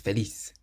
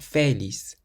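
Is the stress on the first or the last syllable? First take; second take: last; first. First: The stress is on the last syllable. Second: The stress is on the first syllable. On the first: The speaker calls it right. "it ends in a Z, so we stress the last syllable" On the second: The speaker calls it wrong. "So it's not feliz"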